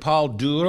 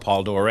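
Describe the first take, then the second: First: The surname is said in a non-American way. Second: The surname is said the American way.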